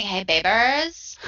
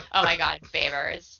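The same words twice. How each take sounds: First: Nasally voice. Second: Said in the usual way. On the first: Retold or imitated. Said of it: "switching back to that nasally voice".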